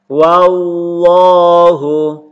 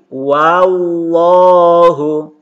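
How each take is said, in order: Both takes have the same delivery.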